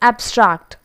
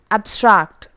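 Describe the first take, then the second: First: The stress is on the first syllable. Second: The same.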